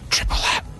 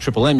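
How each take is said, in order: First: It is said in a whisper. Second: It is said in a normal voice.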